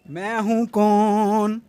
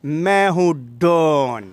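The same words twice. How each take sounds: First: Slow, drawn-out filmi dialogue; dramatic punchy hero lines. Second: Slow, lower, punchy Don dialogue; dramatic punchy hero lines. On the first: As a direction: deliver it like a Bollywood hero. Filmi dialogue intro repeated. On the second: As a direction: hit it like a film villain. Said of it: "ये जो फिल्मी dialogue है". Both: Acted.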